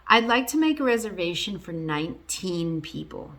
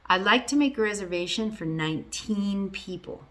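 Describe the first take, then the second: Both takes have the same delivery.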